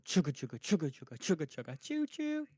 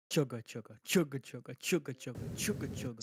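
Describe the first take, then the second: First: Fast chugga chugga train noise; chugging toy train voice. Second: Slower chugga chugga train noise; slow chugging train voice. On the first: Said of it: "Does it go". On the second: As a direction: drag out each chugga like a slow engine. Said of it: "So it's slower chuffing". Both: Retold or imitated.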